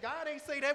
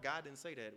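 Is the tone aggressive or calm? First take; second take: aggressive; calm. First: The voice is forceful and confrontational. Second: The voice is relaxed and easygoing. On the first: The speaker calls it wrong. "You get violent almost" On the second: The speaker calls it right. "you hear how the tone calms down?"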